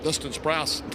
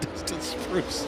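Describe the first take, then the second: First: The surname does not sound like 'spruce'. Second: The surname sounds like the word 'spruce'. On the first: The speaker calls it right. "not Dustin Spruce" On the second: The speaker calls it wrong. "not Dustin Spruce"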